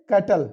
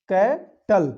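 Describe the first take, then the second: First: Said in the usual way. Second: cattle broken into two beats, कै, pause, टल; syllable by syllable. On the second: Shown as a demonstration. Teacher shows where the vowel sound breaks, saying cattle syllable by syllable. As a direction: split cattle after कै, each syllable on its own. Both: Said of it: "यहाँ दो बार sound break".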